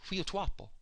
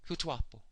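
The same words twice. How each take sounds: The two takes are said the same way.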